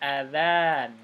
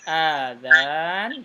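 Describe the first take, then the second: First: The first vowel is short. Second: The first vowel is long. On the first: It means the call to prayer. "Hamzahnya pendek" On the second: It means ears. "Kalau panjang a-nya"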